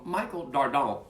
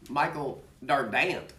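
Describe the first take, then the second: First: The name is said the plain, usual way. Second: The name is said with a Texan pronunciation.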